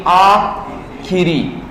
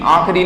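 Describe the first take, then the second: First: Slow, split aa... khi-ree for आखिरी; आखिरी very slowly, pause after aa; correct i vowel. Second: आखिरी said as aakh-ree; आखिरी squeezed to "aakhri"; wrong, i dropped. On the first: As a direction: draw out आखिरी with a clear khi. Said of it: "शुद्ध बोल बोल के लिखना". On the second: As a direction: say आखिरी with no i after kh. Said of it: "आखिरी नहीं". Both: Shown as a demonstration.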